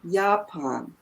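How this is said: It is said with German pronunciation. The speaker calls it right. "In German, it is Japan"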